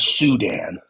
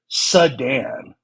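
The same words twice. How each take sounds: First: The word starts with a clear 'soo' sound. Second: The word sounds like the car 'sedan'. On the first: The speaker calls it right. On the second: The speaker calls it wrong.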